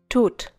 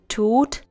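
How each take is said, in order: First: The vowel is cut short. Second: The vowel is held long. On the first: The speaker calls it wrong. "and not tut" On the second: The speaker calls it right. "The tut has to be long"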